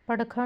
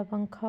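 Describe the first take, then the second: First: पड़खा with a flapped "r" for the nasal; misspelling read out. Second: Said in the usual way. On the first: Shown as a demonstration. Teacher showing a misspelling, nasal replaced. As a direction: say पड़खा as "par-kha", no nasal. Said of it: "नहीं होता". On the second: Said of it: "होता है".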